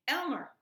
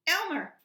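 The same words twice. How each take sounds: First: Calling out. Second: Higher, louder second call of the name. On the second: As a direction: call Elmer again, more urgent. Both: A narrator's reading. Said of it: "cried the dragon".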